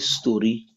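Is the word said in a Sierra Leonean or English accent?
Sierra Leonean. It is said in a Sierra Leonean Krio accent.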